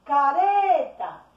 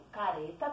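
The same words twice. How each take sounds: First: CARETA called slowly and loudly, RE held long; calling out. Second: Said in the usual way. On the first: Shown as a demonstration. Teacher calls the word like someone's name, calling out CARETA. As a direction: call out caREEEta, higher on the stretched middle. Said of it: "como se estivesse chamando alguém".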